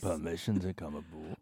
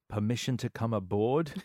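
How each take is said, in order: First: The line is said in a rough, gravelly voice. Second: The line is said in a flirtatious, coy voice. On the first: "He's got a gravel voice" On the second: "Said coquettishly"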